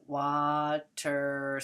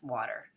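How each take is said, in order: First: Stretched out as wa-ter, each syllable apart; slow, split into syllables. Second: Water run together fast as one word; blended quickly. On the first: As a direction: say water slowly, syllable by syllable. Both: Shown as a demonstration. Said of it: "say it fast".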